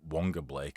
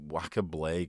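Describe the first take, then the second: First: The first name is said as Wonga. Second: The first name is said as Waka. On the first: The name as everybody says it now. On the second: The name as it used to be said.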